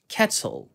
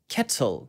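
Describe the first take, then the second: First: British accent, the t is pronounced clearly. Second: British accent, the t is pronounced clearly.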